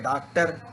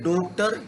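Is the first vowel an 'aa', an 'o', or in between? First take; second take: aa; o. First: The first vowel is an open 'aa'. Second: The first vowel is a rounded 'o'. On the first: "ना आ है" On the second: "ना ओ है"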